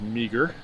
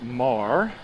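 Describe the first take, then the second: First: It is said with two syllables, like 'meager'. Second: It is said with one syllable, like 'mar'. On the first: The speaker calls it wrong. "A lot of people mispronounce it as meager" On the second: The speaker calls it right. "but it's pronounced Marr"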